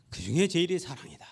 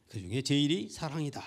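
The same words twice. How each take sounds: First: "중에" pressed, louder repeat; emphatic repeat. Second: Said in the usual way. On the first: Shown as a demonstration. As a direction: lean on "그 중에 제일이 사랑이다" louder. (강조하여 더 크게 반복) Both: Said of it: "repeated for emphasis".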